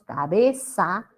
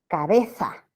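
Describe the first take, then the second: First: The z is pronounced as an s sound. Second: The z is pronounced as a th sound. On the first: This is how speakers in the Americas say it. "Para nosotros todo es S" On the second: This is how speakers in Spain say it. "los españoles la pronuncian como interdental"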